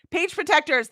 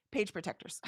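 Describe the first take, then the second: First: Higher and louder, eureka; triumphant recall. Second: Much softer, said to herself; soft repeat. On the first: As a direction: pop out Page protectors like a found answer. Finds the word she wanted. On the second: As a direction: murmur Page protectors almost under the breath. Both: Real, not acted.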